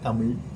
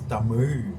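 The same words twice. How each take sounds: First: The final consonant is a plain L sound. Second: The final consonant is a curled-back retroflex sound. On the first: The speaker calls it wrong. "It's not Tamil" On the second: The speaker calls it right. "they made Ra a integral part of the name of the language"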